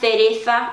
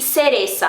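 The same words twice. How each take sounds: First: The c sounds like English th. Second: The c sounds like a strong s. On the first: "esse som como o do Z, que é pronunciado na Espanha ... tipo T H do inglês" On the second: "é o som que nem do nosso S forte"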